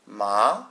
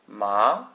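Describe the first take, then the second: First: The pitch rises, like asking a question. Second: The pitch rises, like asking a question.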